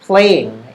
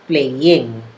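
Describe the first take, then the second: First: The end of the word is shortened. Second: The end of the word is fully pronounced. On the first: The speaker calls it right. "It's playing" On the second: The speaker calls it wrong. "not playing"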